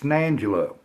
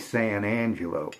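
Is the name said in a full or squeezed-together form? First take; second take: squeezed; full. First: The first two words are squeezed into one. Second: Every syllable is said out in full. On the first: This is how locals say it. "a different way of saying something" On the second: This is how outsiders say it. "which everybody else would say"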